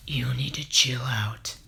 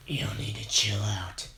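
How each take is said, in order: First: A failed try at a deep voice, whispered; deep voice attempt. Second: Whispered try at a deep voice, pitched lower; deep voice attempt. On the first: Hero tells Muscular to chill, failed deep voice. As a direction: reach for a deep voice and miss it into a whisper. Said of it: "that's not the voice". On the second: Hero tells Muscular to chill, lower whispered deep voice. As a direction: growl it low and breathy, falling short. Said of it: "No, I can't do it".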